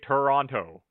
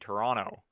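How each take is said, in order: First: The last T sound is clearly pronounced. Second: The last T sound is left out. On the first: This is how people outside Canada say it. "if you ask anybody who's not from Canada, they all say Toronto" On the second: This is how most Canadians say it. "you drop the last T"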